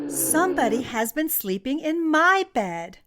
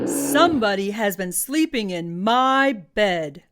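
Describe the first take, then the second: First: It is said in a medium grumbling voice. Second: It is said in a big booming voice.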